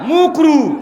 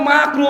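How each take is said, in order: First: The first vowel is a mumbled 'u'. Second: The first vowel is an open 'a'. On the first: The speaker avoids saying the word clearly. The speaker calls it wrong. "মানে ঠিক করে বলবেও না" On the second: The word is said properly. The speaker calls it right. "মানে শব্দ মাকরু"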